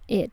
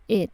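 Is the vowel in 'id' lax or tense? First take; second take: lax; lax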